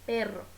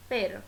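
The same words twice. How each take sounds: First: "perro" with a strongly trilled rr; "perro" with the rr rolled, not tapped; rolled double r. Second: "pero" with one quick tap of r; "pero" with a brief, unrolled r; single tapped r. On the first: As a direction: vibrate the tongue longer on rr in "perro". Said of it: "se vibra ainda mais a língua". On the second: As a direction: tap the r just once in "pero". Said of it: "um R em espanhol vibra". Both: Shown as a demonstration.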